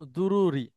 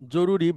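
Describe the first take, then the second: First: The word begins with a d sound. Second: The word begins with a j sound. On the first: This is the Arabic form. "আরবিতেও এটাকে বলা হয় দুরুরি, দ দিয়ে" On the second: This is the Bengali form. "জরুরি বাংলায় একটা শব্দ ব্যবহার করি"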